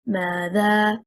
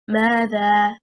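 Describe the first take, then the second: First: The stress is on the second syllable. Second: The stress is on the first syllable. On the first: It is split into two words. The speaker calls it wrong. "if we stress on the second حركة, حركة الذال" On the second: It is a single word meaning what. The speaker calls it right. "stressing on the first حركة"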